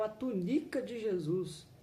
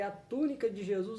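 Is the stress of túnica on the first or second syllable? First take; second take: second; first. First: The stress falls on the second syllable, NI. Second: The stress falls on the first syllable, TÚ. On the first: It sounds like Jesus had a wife. The speaker calls it wrong. "ele leu a tunica de Jesus" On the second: It names Jesus's garment. The speaker calls it right. "em vez de ler a túnica de Jesus"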